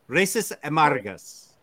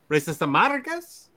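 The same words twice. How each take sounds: First: The voice falls at the end like a statement. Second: The voice rises at the end like a question. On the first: It is a plain statement. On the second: It is asked as a question.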